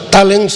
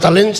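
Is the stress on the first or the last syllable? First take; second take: first; last. First: The stress falls on the first syllable. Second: The stress falls on the last syllable. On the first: The speaker calls it wrong. "mi nombre no es Tallens" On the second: The speaker calls it right. "sino Talents"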